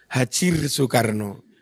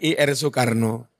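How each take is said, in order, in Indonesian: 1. Ir dibaca sebagai satu suku kata, 'hajir'. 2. Ir dieja sebagai dua huruf. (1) "Tapi dia bacanya Haji Ir Soekarno" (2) "Harusnya kalau bukan Google kan I R Soekarno"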